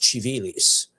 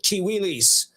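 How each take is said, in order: First: It is said in church Latin style. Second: It is said in a non-church Latin way. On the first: The speaker calls it right. "I'm pronouncing it like church Latin" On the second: The speaker calls it wrong. "I don't want people to say it's Civilis"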